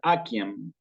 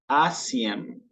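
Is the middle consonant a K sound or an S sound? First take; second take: K sound; S sound. First: The middle consonant is a hard K sound. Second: The middle consonant is a soft S sound. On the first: The speaker calls it right. "acá se pronuncia como una K" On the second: The speaker calls it wrong. "se les escapa decir aciem"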